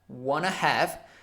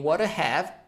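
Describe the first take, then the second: First: Want to is run together as wanna. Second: Each word of want to is said separately.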